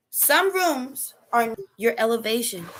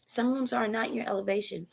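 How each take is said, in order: First: Some leaned on, slow; slow emphatic Some rooms; stress on Some. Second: Not hit, voice dropped softer; stress on not. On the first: Preacher to listeners, slow stress on Some. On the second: Preacher to listeners, softly stressing not. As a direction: quietly lean on the word not. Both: Shown as a demonstration.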